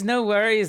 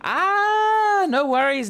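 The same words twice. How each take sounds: First: Said in the usual way. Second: Much higher, louder squeak on no worries; cartoon squeak of relief; squeaky comic voice. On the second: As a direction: pitch it up for a silly reaction. Silly high comic reaction.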